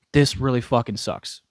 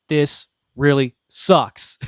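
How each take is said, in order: First: Said in the usual way. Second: Slow, louder groan of dismay; slow groaning complaint. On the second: Real, not acted. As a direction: drag out the complaint slowly, louder.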